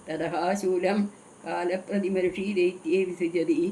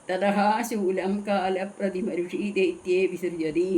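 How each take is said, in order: Both takes have the same delivery.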